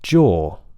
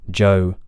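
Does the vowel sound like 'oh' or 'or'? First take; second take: or; oh. First: The vowel is a steady rounded 'or' sound. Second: The vowel is a gliding 'oh' sound. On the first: The speaker calls it right. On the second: The speaker calls it wrong. "you shouldn't be saying joe"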